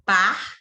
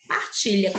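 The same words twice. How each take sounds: First: PARTILHA as three separate beats, par, ti, lha; syllable by syllable. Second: Said in the usual way. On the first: Shown as a demonstration. Teacher counting mouth openings, PARTILHA said syllable by syllable. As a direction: break PARTILHA into par, ti, lha with long pauses. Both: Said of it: "presta atenção comigo".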